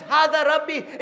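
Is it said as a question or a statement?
statement. It is said as a flat statement. He declares that this is his Lord. The speaker calls it wrong. "It's not that Ibrahim says"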